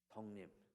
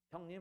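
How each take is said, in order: First: The word begins with an s sound. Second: The word begins with an h sound. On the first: This is the dialect form. "성님 그럽니다" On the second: This is the standard form. "경상도에서는요. 형님 안 그래요"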